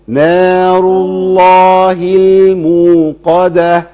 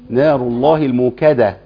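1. الكلمة الأخيرة فيها قاف عميقة من الحلق. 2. الكلمة الأخيرة فيها كاف أمامية. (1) "دي قاف" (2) "لا كاف ايه يا عم الشيخ دي قاف"

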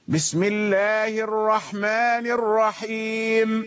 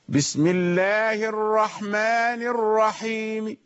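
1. تنتهي الميم بالسكون دون أي حركة. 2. تحمل الميم كسرةً خفيفةً جزئيةً. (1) "هذا وقف على الميم بالسكون" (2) "وإنما صوت ضعيف الرحيم، صوت ضعيف بالروم"

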